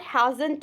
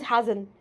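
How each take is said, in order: First: "hasn't" with the T popped into an extra "tu"; hasn't with released T. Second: "hasn't" closing on the N, T swallowed; hasn't without T. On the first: Teacher showing the version to avoid, "hasn't" ending in "tu". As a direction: sound the final T of "hasn't" as its own syllable. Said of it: "It is not hasn't". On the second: Teacher correcting learners, "hasn't" with silent T. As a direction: let "hasn't" end as "hazn". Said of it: "it is hasn't". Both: Shown as a demonstration.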